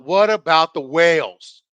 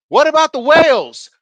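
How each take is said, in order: First: Loud, slow mock yell at usual pitch; retold yell. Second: High, loud heckling yell. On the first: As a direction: drag out the heckle loudly, imitating it. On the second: Retold or imitated. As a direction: yell it out at the presenter from the crowd. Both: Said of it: "This motherfucker yelled out".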